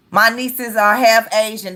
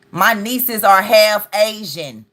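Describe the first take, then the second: First: Said in the usual way. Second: Slow, deliberate emphasis on "half"; slow, stressed "half". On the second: Shown as a demonstration.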